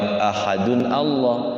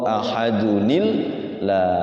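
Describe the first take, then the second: First: The words are said without an added ni sound. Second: The words are joined with an added ni sound. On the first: "lafad ahadun Allah" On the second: "kalau diwasal timbul nun kecil"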